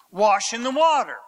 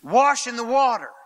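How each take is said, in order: First: WATER leaned on at the end; stress on water. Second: WASH leaned on, the rest falling; stress on wash. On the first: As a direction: put the weight on water. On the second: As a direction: hit the word wash first. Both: Shown as a demonstration. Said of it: "Wash in the water, said twice".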